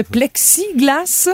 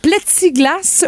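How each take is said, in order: First: Said in the usual way. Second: "plexiglas" said as "plètsiglas"; mispronounced plexiglas. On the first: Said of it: "au lieu de plexiglas". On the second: Retold or imitated. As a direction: say "plexiglas" without its k sound. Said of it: "plexiglas au lieu de plexiglas".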